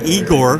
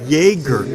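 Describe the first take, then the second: First: The name begins with an 'ee' sound. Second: The name begins with a 'yeh' sound. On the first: The speaker calls it wrong. "not Igor, which is what I was saying to people early. Like that's not how you say it" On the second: The speaker calls it right. "it's Jaeger"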